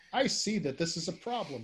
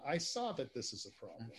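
First: Runyon-style line, present tense, said a bit louder; mock tough-guy present tense. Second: Said in the usual way. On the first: Shown as a demonstration. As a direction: demo of the right way, a touch louder. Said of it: "they'll just say". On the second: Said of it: "rather than".

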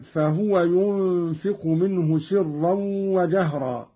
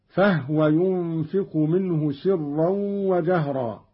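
First: Said in the usual way. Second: فهو with a vowelless ha, "fahwa"; Qalun's silent-vowel ha. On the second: Shown as a demonstration. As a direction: close فهو to two syllables, "fah-wa". (فهو بإسكان الهاء) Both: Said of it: "قرأ قالون بإسكان الهاء".

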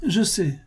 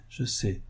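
First: "je sais" lifted high, same level; first "je sais" pitched well up; raised je sais. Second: "je sais" dropped much softer, back to normal pitch; softer repeat. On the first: Moret cuts his uncle off, pitched up. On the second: Moret repeats himself to his uncle, much softer. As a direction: let the second "je sais" fall away quietly. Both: Acted.

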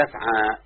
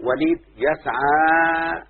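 First: Said in the usual way. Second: يسعى drawn out slowly with the final alef held long; reading يسعى out slowly, stretching its last vowel; slow example reading. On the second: Shown as a demonstration. Teacher to student, stretching يسعى slowly to show the long alef. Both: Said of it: "ده فعل مضارع معتل بالألف".

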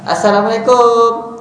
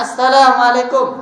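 First: Assalamualaikum drawn out slowly, ending "kom"; slow, everyday Assalamualaikum with a rounded "kom"; usual local greeting. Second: Assalamualaikum said slowly, ending a clear "kum"; slow, correct Assalamualaikum with a crisp final "kum"; correct greeting. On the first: Preacher imitating how people usually greet, slow and drawn out. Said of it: "itu kan biasanya kita". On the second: Preacher showing the correct greeting, slowly. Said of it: "Tidak salah". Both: Shown as a demonstration.

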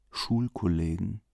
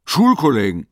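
First: Soft, brooding repeat of Schulkollegen; quiet echo. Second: Sudden loud exclamation; calling out. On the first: Nervous Leo alone at night, repeating it softly. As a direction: murmur Schulkollegen to yourself, uneasy. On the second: Investigator calls out his idea to Leo, loud. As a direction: blurt it out loud as if struck by an idea. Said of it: "Dann rief er". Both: A narrator's reading.

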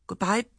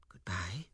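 First: Higher, louder clipped goodbye; impatient. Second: Whispered goodbye, barely voiced; low tone. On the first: Acted. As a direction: snap it out impatiently. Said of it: "she said impatiently". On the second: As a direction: breathe it out low and sudden. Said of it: "she said suddenly in a low tone".

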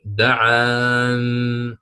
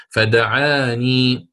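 First: "دعان" very slowly, ending on a silent نون; ya dropped. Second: "فدعاني" very slowly, with a long final ياء; "فدعاني" read in full, slow. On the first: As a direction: drop the ياء and stop "دعان" on the نون. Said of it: "دعاني عند الوقف ما ستقول". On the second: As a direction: stretch "فدعاني" keeping the ياء. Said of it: "عند من يحذفها وقفا". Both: Shown as a demonstration.

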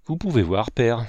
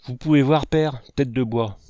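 First: Said in the usual way. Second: Scolding father mimicking his son; mocking echo. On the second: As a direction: throw his own words back at him, exasperated. Father throws son's words back.

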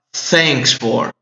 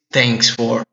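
First: "thanks for" with a clear TH; correct th sound. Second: "thanks" said with a plain T, as "tanks"; "thanks for" with a hard T instead of TH; wrong t sound. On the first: Teacher showing students the right "thanks" with TH. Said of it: "Você fala thanks for". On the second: Teacher showing students the wrong "thanks" with a T. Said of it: "Não se diz thanks for". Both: Shown as a demonstration.

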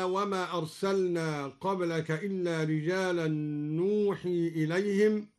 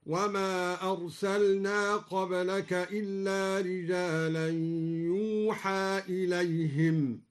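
First: Said in the usual way. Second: يوحى with damma on ya and open ha, slow chant; yuha reading. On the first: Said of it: "بدل النون". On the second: Shown as a demonstration. Reciter showing Duri reading, slow chanted يوحى. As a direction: read يوحى passive, not نوحي. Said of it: "هكذا".

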